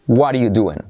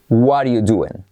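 The two takes are said the same way.

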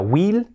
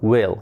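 First: The vowel is not close to an 'e'. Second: The vowel is close to an 'e'. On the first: The speaker calls it wrong. "que no sea will, no" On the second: The speaker calls it right. "will, casi una E"

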